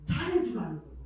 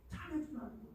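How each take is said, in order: First: Said in the usual way. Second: 잘해주라는 said high and very soft; softer repeat. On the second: Shown as a demonstration.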